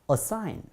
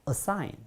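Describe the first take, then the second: The two takes are said the same way.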